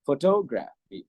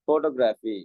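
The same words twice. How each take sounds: First: The pitch rises then drops across the word. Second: The word is said with level, flat pitch. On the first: This is how native speakers say it. The speaker calls it right. "இப்படி சொல்லுவாங்க" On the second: This is how locals say it. The speaker calls it wrong. "சாதாரணமா சொல்லுவோம்"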